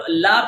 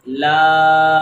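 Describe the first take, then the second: First: لا with a short a; wrongly shortened. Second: لا held long and loud on a level aa; long vowel. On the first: Teacher warns of a wrong reading, لا kept short. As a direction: cut لا short without stretching. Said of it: "لا پڑھیں گے تو یہ غلط ہو جائے گا". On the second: Teacher models alif madda, لا drawn out. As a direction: stretch لا firmly. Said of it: "اس کو لمبا کرنا یہ لازمی ہے". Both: Shown as a demonstration.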